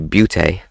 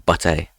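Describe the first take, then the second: First: The vowel sounds like you, as in cute. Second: The vowel sounds like uh, as in but. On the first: "U as a U" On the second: "U as an uh"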